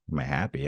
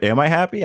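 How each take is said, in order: First: Low, soft, dismissive echo of a question; offhand echo. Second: High-pitched, questioning realisation; startled self-doubt. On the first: Answering his brother's question at first, low and offhand. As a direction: toss the question back quietly, barely considering it. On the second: Brother's repeated question sinks in, high startled self-doubt. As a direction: ask it of yourself, pitch leaping up in doubt. Second asking makes him doubt. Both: Retold or imitated.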